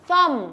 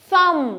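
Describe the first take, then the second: No difference in how they are said.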